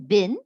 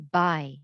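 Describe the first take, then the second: First: The syllable has a short vowel and ends in n. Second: The syllable has a long vowel and no n. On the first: The speaker calls it wrong. "Instead of saying bin" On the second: The speaker calls it right. "we will break it here and we say by"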